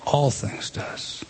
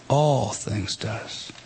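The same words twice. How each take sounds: First: Very slow whispered All things does; hushed slow emphasis on All; emphatic whisper. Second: Very slow and low All things does, voiced this time; slow low emphasis on All. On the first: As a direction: breathe All things does out slowly in a hush. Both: Shown as a demonstration. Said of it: "it is emphatic".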